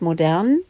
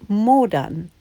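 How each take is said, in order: First: The stress is on the second syllable. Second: The stress is on the first syllable. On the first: Something is fashionable and up to date. "das Wort modern" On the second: Something rots or decays. "anders betont, heißt modern"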